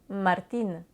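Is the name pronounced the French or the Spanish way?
Spanish. The name ends in a clear Spanish 'een' sound. The speaker calls it right. "donc on devrait dire Martine"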